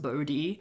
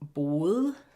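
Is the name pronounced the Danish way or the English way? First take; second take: English; Danish. First: The name is pronounced the English way, Bodhi. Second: The name is pronounced the Danish way. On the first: "in English it's pronounced Bodhi" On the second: "The pronunciation in Danish isn't that great"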